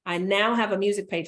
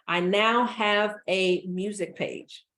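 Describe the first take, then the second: First: Said in the usual way. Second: "now" drawn out slowly and leaned on; slow emphasis. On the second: Shown as a demonstration. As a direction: slowly weigh "now", letting each word land.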